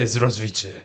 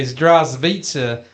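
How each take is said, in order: First: "Здравствуйте" quicker, lower, run together in a Russian accent; proper Russian greeting. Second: "Здравствуйте" drawn out slowly in flat-footed American sounds; wrong Russian greeting. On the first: Showing co-host how to say hello in Russian, "Здравствуйте" with proper accent. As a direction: say "Здравствуйте" low and compact, like a Russian. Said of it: "You gotta say". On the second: Showing co-host how not to say hello in Russian, "Здравствуйте" mispronounced slowly. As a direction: stretch "Здравствуйте" out, stressed syllable long and full. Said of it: "you can't say".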